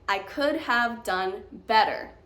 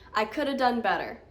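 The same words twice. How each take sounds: First: "Could have" is said fully and carefully. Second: "Could have" is reduced to "coulda".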